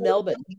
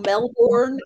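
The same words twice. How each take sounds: First: It is said in an Australian accent. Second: It is said in an American accent. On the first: "that's with the Aussie accent" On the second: "if you're saying it in an American accent"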